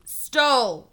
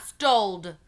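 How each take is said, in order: First: "Stole" said firmly, one clean syllable; correct stole. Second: "stoled" with the extra d, quoted as the error; wrong stoled. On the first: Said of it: "The word is stole". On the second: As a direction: echo the child's wrong "stoled". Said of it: "not stoled". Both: A narrator's reading.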